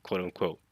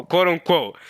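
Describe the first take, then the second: First: Said in the usual way. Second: Louder, pointed "quote unquote" full of doubt; sarcastic quote unquote. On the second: Shown as a demonstration. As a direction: lean on "quote unquote" to signal disbelief.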